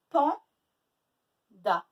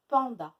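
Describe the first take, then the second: First: PANDA as loud PAN, long pause, da; split into syllables. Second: Said in the usual way. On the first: Shown as a demonstration. Teacher working the example with pupils, syllable by syllable. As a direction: break Panda into two well-separated beats. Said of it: "deux syllabes". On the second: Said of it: "Il faut me montrer le codage de".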